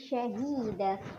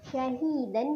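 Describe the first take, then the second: First: The word ends with a long a vowel. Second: The word ends with an n sound.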